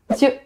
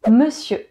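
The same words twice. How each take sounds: First: A sound in the middle is dropped. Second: Every sound of the word is pronounced.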